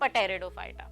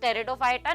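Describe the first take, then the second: First: The word begins with a spoken p sound. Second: The word begins with a t sound, p silent. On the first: The speaker calls it wrong. "Not पटेरिडोफाइटा" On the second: The speaker calls it right. "It's pronounce as टेरिडोफाइटा"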